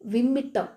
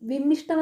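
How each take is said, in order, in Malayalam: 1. നടുവിലുള്ളത് ഇരട്ടിച്ച 'tta' ആയാണ് ഉച്ചരിക്കുന്നത്. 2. നടുവിലുള്ളത് 'shta' എന്ന സംയോഗമായാണ് ഉച്ചരിക്കുന്നത്. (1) "വിമ്മിട്ടം എന്നാ പറയേണ്ടത്" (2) "വിമ്മിഷ്ടം എന്നാണ് നമ്മൾ സാധാരണ പറയുമ്പോൾ പറയുന്നത്, പക്ഷെ അങ്ങനെയല്ല പറയേണ്ടത്"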